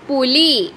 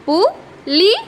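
First: Said in the usual way. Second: പു, ലി said as two separate syllables with a pause between; split into syllables. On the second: Shown as a demonstration. Teacher to young pupils, sounding out പു, ലി syllable by syllable. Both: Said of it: "ല എന്ന അക്ഷരത്തിന് വള്ളി ചിഹ്നം ഇട്ടു".

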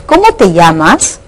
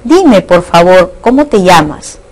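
First: Rising tune to the end, as a direct question; direct question intonation. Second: Measured request, "cómo te llamas" falling at the end; indirect question intonation. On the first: Teacher reading the direct-question example, questioning rise. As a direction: ask "Cómo te llamas" outright, lifting the end. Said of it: "Ejemplo de oración interrogativa directa". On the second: Teacher reading the indirect-question example, falling tune. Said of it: "el ejemplo de la oración interrogativa indirecta". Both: Shown as a demonstration.

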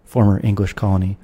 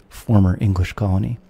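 No difference in how they are said.

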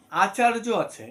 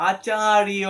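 First: Said in the usual way. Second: আচার্য said loud with the য like ইয়, acharyo; Sanskrit pronunciation. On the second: Shown as a demonstration. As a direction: stress আচার্য and voice য as a y glide. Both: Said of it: "এই আচার্যের উচ্চারণটা হবে".

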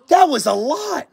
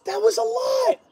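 First: Said in the usual way. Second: Much higher, softer squeak of disbelief; high disbelieving squeak; squeaky repeat. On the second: Real, not acted. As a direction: squeak it out, overwhelmed.

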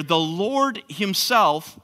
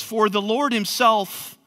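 First: "the Lord himself" slowed, with "Lord" weighted heavily; emphatic on Lord. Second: Said in the usual way. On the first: Shown as a demonstration. Preacher underlining the phrase for his listeners, slow and stressed. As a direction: lean into "Lord" and slow each word down. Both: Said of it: "is emphatic".

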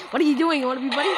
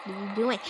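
First: Higher and louder, stress on "are"; loud what-are-you-doing demand; louder challenge. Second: Said in the usual way. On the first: Real, not acted. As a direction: push the question at him. Confronting Red, louder.

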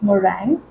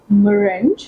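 First: "meringue" said muh-RANG; corrected pronunciation. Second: "meringue" misread as muh-RINJ; mispronunciation demo. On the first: Vlogger correcting the shade name for viewers, "meringue" pronounced muh-RANG. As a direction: end "meringue" on a rang sound, no j. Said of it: "it's meringue". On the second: Vlogger showing viewers the mistake, "meringue" mispronounced muh-RINJ. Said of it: "It's not meringue". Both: Shown as a demonstration.

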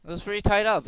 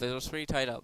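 First: Raised, louder; louder and higher than the next take; louder first take. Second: Said in the usual way. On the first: Shown as a demonstration. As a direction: say it up high and loud. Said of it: "repeated softer".

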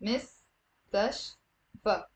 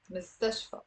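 First: مستشفى slowly broken into mis, tash, fa; syllable by syllable. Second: Said in the usual way. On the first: Shown as a demonstration. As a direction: pause between the three syllables of مستشفى. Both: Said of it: "it's three syllables".

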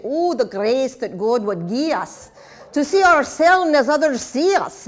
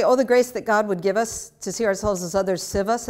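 First: A touch of Scottish lilt on the poem; Scottish accent. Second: Said in the usual way. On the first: Shown as a demonstration. Teacher quoting Robert Burns to her class, in a Scottish accent. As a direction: recite the Burns line in a light Scottish accent so "see" and "us" rhyme. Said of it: "You have to say this with a Scottish accent in order to get the rhymes". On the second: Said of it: "You have to say this with a Scottish accent".

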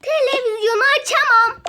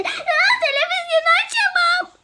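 First: Said in the usual way. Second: Laughing line. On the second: Acted. Repeats line, laughing high.

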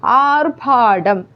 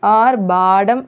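First: ആർഭാടം slow, with a p sound for ഭ; wrong consonant. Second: ആർഭാടം with a voiced b sound for ഭ; correct consonant. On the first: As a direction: show ആർഭാടം mistaken as "aarphaadam". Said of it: "ആർഭാടം എന്നാണ് പറയുക". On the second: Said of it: "എന്നാണ് പറയുക". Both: Shown as a demonstration.

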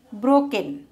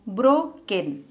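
First: Said in the usual way. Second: "broken" split as bro, pause, ken; syllable by syllable. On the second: Shown as a demonstration. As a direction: break "broken" into two beats. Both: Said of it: "two syllable word".

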